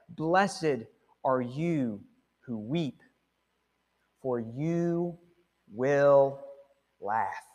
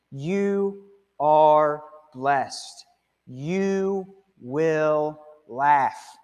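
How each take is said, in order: First: Slow hushed scripture quote. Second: Very slow tender blessing. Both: Acted. Quoting Jesus to the grieving.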